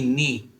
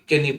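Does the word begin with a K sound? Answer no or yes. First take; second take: no; yes. First: The word begins with an N sound. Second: The word begins with a K sound. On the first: The speaker calls it right. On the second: The speaker calls it wrong.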